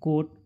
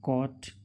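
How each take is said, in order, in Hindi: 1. स्वर बंद 'oh' ध्वनि है। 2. स्वर खुली 'aw' ध्वनि है। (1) "इसको कोट ... नहीं पढ़ती" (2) "उस ओ को आ आ से पढ़ते हैं"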